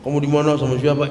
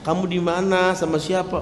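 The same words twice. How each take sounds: First: It is asked in an angry tone. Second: It is asked in a calm, plain tone.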